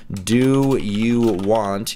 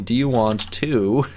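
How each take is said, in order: First: "Do you want," said slow, one word at a time; each word spaced out. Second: Said in the usual way. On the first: Shown as a demonstration. Reading the fan's chat slowly, word by word. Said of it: "you notice how I put that". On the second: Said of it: "I put that all in one line".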